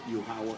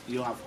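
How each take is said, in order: Both takes have the same delivery.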